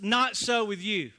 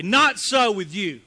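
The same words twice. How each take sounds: First: Said in the usual way. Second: Emphatic, slow. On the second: Acted. Reading alternate translation, emphatic.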